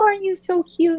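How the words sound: The voice is pitched high. A person talks sweetly to a baby. "our pitch goes up"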